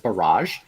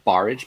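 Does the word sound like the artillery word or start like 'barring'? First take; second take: artillery word; like barring. First: It is said like the word for an artillery attack. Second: It is said starting like the word 'barring'. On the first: This is how most people say the game's name. The speaker calls it wrong. "People people pronounce it as barrage" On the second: The name refers to barring water from coming in. The speaker calls it right. "actually supposed to be pronounced barrage because you're barring water"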